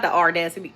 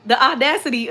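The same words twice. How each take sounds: First: "audacity" with an r, like "ar-dacity"; mispronounced audacity. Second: "audacity" without the r, like "aw-dacity"; corrected audacity. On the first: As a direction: say "audacity" wrongly as "ardacity". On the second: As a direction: say "audacity" cleanly, no r sound. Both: Shown as a demonstration. Corrects her own pronunciation of audacity.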